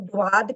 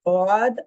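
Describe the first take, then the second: First: It begins with a d followed by w. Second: It begins with a heavy d, no w. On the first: The speaker calls it wrong. "हम द्वाद कहते हैं" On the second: The speaker calls it right. "ये दौद है... आवाज हैवी है, मोटी है"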